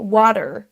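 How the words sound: American accent, with a strong R at the end. "ça c'est pour l'accent américain. Le R est vraiment roulé"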